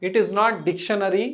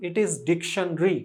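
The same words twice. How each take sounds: First: Dictionary said as four syllables, dic-tion-a-ree; dictionary with a long drawn-out tail, as the mistake; wrong pronunciation. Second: Dictionary clipped to three syllables, DIK-shun-ree; dictionary said short and quick, the proper way; the right way: dictionary as DIK-shun-ree; correct pronunciation. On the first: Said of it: "పలకాల్సినటువంటి విధానం". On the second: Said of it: "Correct your pronunciation immediately". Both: Shown as a demonstration.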